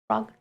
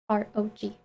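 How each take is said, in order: First: It is said as one single syllable. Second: It is spelled out as three separate letters. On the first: "for the convenience of it being uh, one syllable" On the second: "instead of"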